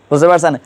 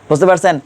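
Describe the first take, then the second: No difference in how they are said.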